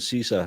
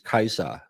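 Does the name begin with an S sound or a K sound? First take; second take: S sound; K sound. First: The name begins with a soft S sound. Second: The name begins with a hard K sound. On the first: The speaker calls it wrong. "So Caesar isn't Caesar" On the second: The speaker calls it right. "he's Kaiser"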